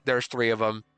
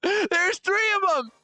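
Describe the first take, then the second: First: Said in the usual way. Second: Drawn-out high laughing exclaim; slow high laughing outburst. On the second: Real, not acted. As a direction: stretch it high through a laugh. Same line repeated mockingly.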